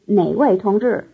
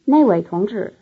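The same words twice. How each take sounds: First: The first syllable has a low tone. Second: The first syllable has a falling tone. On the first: It asks which comrade. "which comrade ... a low tone" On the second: It points to that comrade. "that comrade,is the difference between a low tone and a falling tone"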